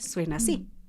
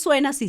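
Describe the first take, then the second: First: The voice is deep, with chest resonance. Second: The voice is thin, without chest resonance. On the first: The speaker calls it right. "le pongo resonador de pecho y le pongo grave" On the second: The speaker calls it wrong. "si yo a mi voz le quito el pecho, le quito mi resonador de pecho"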